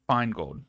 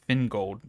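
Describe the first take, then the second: First: The first syllable sounds like 'fine'. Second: The first syllable sounds like 'fin'. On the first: The speaker calls it right. "Feingold is how you say it" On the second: The speaker calls it wrong. "not fin"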